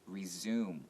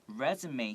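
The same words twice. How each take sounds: First: It is pronounced as the verb form. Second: It is pronounced as the noun form. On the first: It means to continue. "If it's a verb, it's resume" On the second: It names the document given when applying for a job. "resume here is a noun"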